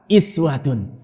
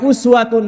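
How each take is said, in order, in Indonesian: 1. Kata itu diawali dengan vokal 'ee'. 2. Kata itu diawali dengan vokal 'oo'. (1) "Juga ada qiraah bacaan lain, bacaannya adalah apa? Iswatun" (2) "Ada bacaannya uswatun hasanah, ini adalah bacaan yang mutawatir"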